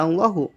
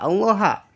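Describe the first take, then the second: First: The word ends with a u vowel. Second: The word ends with an a vowel. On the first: "Dan tidak"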